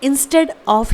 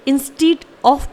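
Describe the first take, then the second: First: The second syllable has a short 'e' vowel. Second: The second syllable has a long 'ee' vowel. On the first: The speaker calls it right. "जो कि correct pronunciation है।" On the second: The speaker calls it wrong. "जो कि गलत है।"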